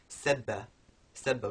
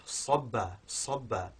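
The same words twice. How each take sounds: First: SEBBA with a light s and front vowel. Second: Weight the S of SABBA, tongue back raised; heavy emphatic s. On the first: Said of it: "which begins with sin". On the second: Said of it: "it's a heavier sound". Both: Shown as a demonstration.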